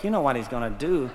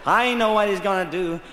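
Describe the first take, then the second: First: Grumbling shoulder. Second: A lightly voiced stomach at normal level. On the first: Acted. His shoulder dreads the morning swim, a weary quick grumble. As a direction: mutter it like a fed-up body part. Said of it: "My shoulder went". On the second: His stomach answers the shoulder, lightly voiced and resigned. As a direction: say it as a resigned gut. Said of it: "My stomach went".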